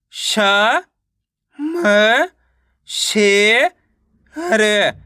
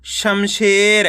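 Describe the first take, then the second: First: "श, म, शे, र" separately with pauses; teacher's broken-up "श, म, शे, र"; sounding out syllables. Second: Said in the usual way. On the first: Shown as a demonstration. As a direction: stretch "म" and "शे" upward, then drop on "र". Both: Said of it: "direct मात्रा का उच्चारण करके".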